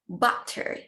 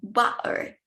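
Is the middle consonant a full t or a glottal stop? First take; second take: full t; glottal stop. First: The middle consonant is a full t. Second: The middle consonant is a glottal stop.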